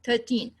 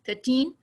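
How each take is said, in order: First: The first syllable carries light secondary stress. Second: The first syllable is almost inaudible. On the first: The speaker calls it right. "नहीं" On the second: The speaker calls it wrong. "अब ऐसा भी नहीं कह सकते thirteen कि हम third को तो भूल बिल्कुल ही सुनाई नहीं दे रहा है"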